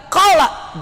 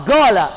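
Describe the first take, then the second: First: Said in the usual way. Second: "gala" with a hard g in place of q, falling; Yemeni g. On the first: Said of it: "tidak qala". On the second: Shown as a demonstration. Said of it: "yang dari Yaman".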